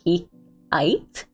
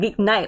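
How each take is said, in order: First: The name is said without an N sound. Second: The name is said with an N sound. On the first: "Do I not pronounce the N?"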